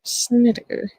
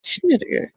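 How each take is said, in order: First: "Snedeker" said as SNIT-ih-ker; "Snedeker" in three syllables, starting with a clean s; alternative pronunciation. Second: "Schneider" said as SHNIT-ih-ker; "Schneider" in three syllables, starting with sh; trying a pronunciation. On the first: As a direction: say "Snedeker" with a plain s, no sh. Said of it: "Whichever fucking one it was". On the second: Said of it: "rehear how you pronounced it". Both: Shown as a demonstration.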